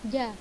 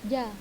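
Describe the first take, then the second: No difference in how they are said.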